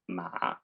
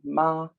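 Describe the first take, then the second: First: It is said with a falling-rising tone. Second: It is said with the first tone. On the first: "third tone, falling, rising" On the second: "first tone"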